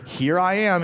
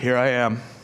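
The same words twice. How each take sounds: First: It is said in a proud, boastful way. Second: It is said with a sigh, deflated.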